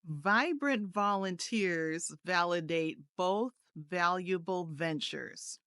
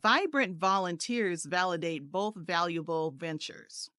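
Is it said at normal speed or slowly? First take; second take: slowly; normal. First: It is said a little more slowly. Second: It is said at a normal pace.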